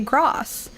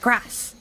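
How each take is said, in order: First: It has a long southern English vowel. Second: It has a short northern English vowel.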